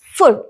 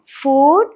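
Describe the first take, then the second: First: The vowel is short and clipped. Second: The vowel is a long, extended oo. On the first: The speaker calls it wrong. "Generally, we will pronounce it as food" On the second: The speaker calls it right. "we need to pronounce it as oo sound"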